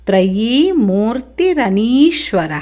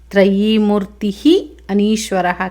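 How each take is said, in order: First: The two words run together, linked by an r sound. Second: The two words are said apart, with no linking sound.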